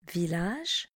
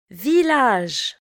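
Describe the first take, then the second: First: Village repeated much softer and lower. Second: Village said clearly at full voice; teacher models Village for learners, clearly; model word. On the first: Teacher echoes Village quietly for the class. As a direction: softly echo Village. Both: Shown as a demonstration. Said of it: "Répétez après moi".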